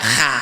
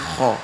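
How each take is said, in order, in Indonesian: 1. Vokalnya 'a' yang tipis dan terbuka. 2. Vokalnya 'o' yang tebal dan membulat. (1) "tidak kha" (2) "tapi kho"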